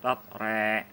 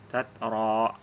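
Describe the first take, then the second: First: The final vowel is tilted toward e. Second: The final vowel is a fully open a. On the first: "dibaca dengan imalah" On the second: "boleh dibaca dengan fathah pada saat waqaf"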